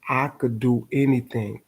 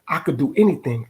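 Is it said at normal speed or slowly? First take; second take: slowly; normal. First: It is said slowly. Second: It is said at normal speed.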